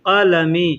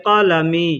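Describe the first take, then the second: No difference in how they are said.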